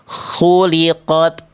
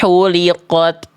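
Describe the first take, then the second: First: It starts with a rasping kh sound. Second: It starts with a light, plain h sound. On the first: The speaker calls it right. "Yang betul adalah yang C" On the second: The speaker calls it wrong. "Yang B salah karena dibaca jadi huruf uh, H kecil"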